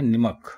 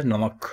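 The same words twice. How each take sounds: First: نمک said as "nimak", with an i after the n; wrong pronunciation. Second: نمک said as "namak", with an a after the n; correct pronunciation. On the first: Teacher showing the common mistake, نمک said as "nimak". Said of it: "تو یہ غلط ہو جاتا ہے". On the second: Teacher giving the correct form, نمک said as "namak". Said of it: "نمک، salt". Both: Shown as a demonstration.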